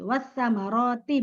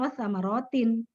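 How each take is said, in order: First: The word ends without an n sound. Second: The word ends with an added n sound. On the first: The speaker calls it right. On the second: The speaker calls it wrong.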